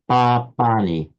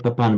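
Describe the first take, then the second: First: The first syllable keeps its full length. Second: The first syllable is short and unstressed. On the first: The speaker calls it right. "but papani" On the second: The speaker calls it wrong. "we wouldn't say papani"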